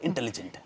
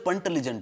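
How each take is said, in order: First: The word begins with an 'in' sound. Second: The word begins with a 'pun' sound. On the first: The speaker calls it right. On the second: The speaker calls it wrong. "ಅದು ಪಂಟಲಿಜೆಂಟ್ ಅಲ್ಲ"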